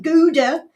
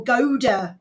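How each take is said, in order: First: "Gouda" with an oo, as GOO-duh; GOO-duh pronunciation. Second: "Gouda" with a long o, as GOH-duh; GOH-duh pronunciation. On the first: Host asking chat about the cheese, "Gouda" said GOO-duh. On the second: Host offering chat the alternative, "Gouda" said GOH-duh. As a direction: say "Gouda" to start like go. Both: Shown as a demonstration. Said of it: "is it Gouda or Gouda?".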